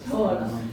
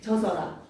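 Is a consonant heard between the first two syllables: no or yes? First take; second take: no; yes. First: No consonant is heard between the first syllables. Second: A consonant is kept between the first syllables. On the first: The speaker calls it right. "저어라야" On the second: The speaker calls it wrong. "안동형은 젖어라인 줄 알았던 거지"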